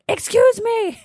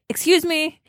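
First: It is said at its loudest. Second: It is said louder than before.

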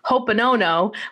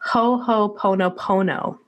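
First: The syllables 'pono' are said only once. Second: The syllables 'pono' are said twice in a row. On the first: The speaker calls it wrong. "I clearly have been pronouncing it Ho'oponono" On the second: The speaker calls it right. "you had explained it's Ho'oponopono"

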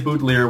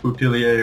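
First: The name is said with an English-style pronunciation. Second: The name is said with a fancier French-style pronunciation. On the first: This is how the family actually says it. The speaker calls it right. "they're the English-speaking French-Canadians, so we say Boutillier" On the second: This is not how the family says it. The speaker calls it wrong. "we don't say it Boutillier or anything fancy like that"

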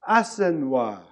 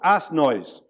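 First: It is said with a French pronunciation. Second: It is said as the English words 'ass noise'. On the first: The speaker calls it right. "when you pronounce it, it sounds nice" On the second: The speaker calls it wrong. "which is what it got called"

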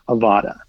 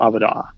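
First: It is pronounced the English way. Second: It is pronounced the Hebrew way.

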